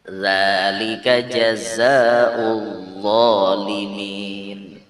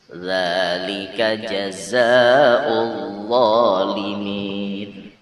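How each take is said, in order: Both takes have the same delivery.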